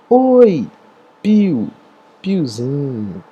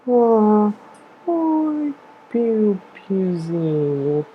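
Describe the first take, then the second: First: It is said in a plain, neutral tone. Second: It is said in a sad voice.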